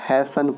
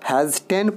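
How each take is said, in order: First: The t sound is silent. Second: The t sound is clearly pronounced. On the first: The speaker calls it right. "इसको हैसन पढ़ेंगे।" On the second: The speaker calls it wrong. "हैजटेन पढ़ेंगे तो गलत हो जाएगा।"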